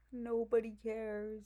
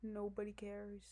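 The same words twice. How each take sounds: First: Said in the usual way. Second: Quiet. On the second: Real, not acted.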